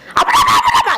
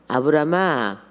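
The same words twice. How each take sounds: First: The name is called in a very hurried voice. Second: The name is called slowly and calmly. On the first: The speaker calls it right. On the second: The speaker calls it wrong.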